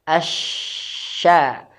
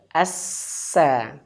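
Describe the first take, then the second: First: The consonant is a spread sh sound. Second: The consonant is a sharp s sound. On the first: The speaker calls it right. "Huruf shin itu teman-teman di tengah lidah" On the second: The speaker calls it wrong. "Bukan di ujung lidah"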